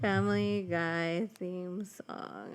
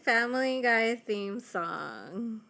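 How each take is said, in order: First: Stretched-out title read; slow announcer voice. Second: Drawn-out title announcement; announcer voice. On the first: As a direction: say the title slowly and grandly. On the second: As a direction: announce it slowly like a title card. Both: Acted.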